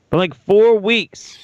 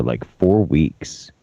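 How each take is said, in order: First: Emphatic. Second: Said in the usual way. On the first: Real, not acted. Repeats announcement louder.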